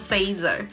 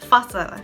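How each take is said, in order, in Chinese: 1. 它是用英语式的发音读的。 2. 它是用芬兰语式的发音读的。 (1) "我之前一直都以为它读作Fazer" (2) "这个芬兰文叫做Fazle"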